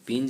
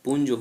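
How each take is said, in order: First: The vowel is an 'i' sound. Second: The vowel is a 'u' sound. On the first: The speaker calls it wrong. "बिगड़े हुए शब्द में हम लोग पिंज बोलते हैं। पिंज नहीं होता है" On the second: The speaker calls it right. "पुंज होता है"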